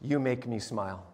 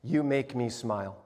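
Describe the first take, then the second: First: Softer and lower, moved; tender reading. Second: Soft, lower reading of the card; tender reading. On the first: Pastor rereading the child's card, hushed and moved. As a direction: read it hushed, years later. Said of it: "I open it up". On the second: Pastor reading a child's card, softly tender. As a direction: read it gently like a treasure. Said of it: "the inside is this". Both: Retold or imitated.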